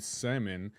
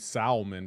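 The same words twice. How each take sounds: First: Said in the usual way. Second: Salmon with an audible L; salmon with L pronounced. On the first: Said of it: "because I see an L there". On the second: Shown as a demonstration. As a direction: sound the L in salmon. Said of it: "I see an L there".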